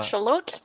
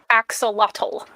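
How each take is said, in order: First: The word is said with Nahuatl sounds. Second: The word is said with English sounds. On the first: The speaker calls it right. "That is nahuatl. It's axolotl" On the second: The speaker calls it wrong. "It's not pronounced axolotl"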